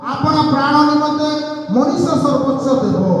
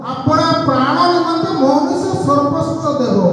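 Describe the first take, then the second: No difference in how they are said.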